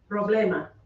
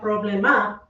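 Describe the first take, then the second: First: The stress is on the middle syllable. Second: The stress is not on the middle syllable. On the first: The speaker calls it right. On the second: The speaker calls it wrong. "Not problema"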